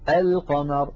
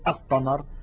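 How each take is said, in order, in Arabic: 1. تُسمع اللام بوضوح قبل Q. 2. تندمج اللام في صوت Q مُشدَّد. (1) "لاحظوا أن اللام ظاهرة" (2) "لم نقل القمر"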